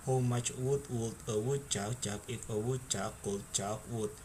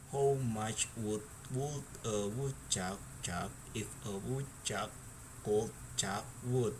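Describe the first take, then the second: First: It is said at a fast speed. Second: It is said at a normal speed.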